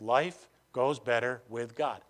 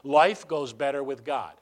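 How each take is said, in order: First: It is said slowly. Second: It is said fast.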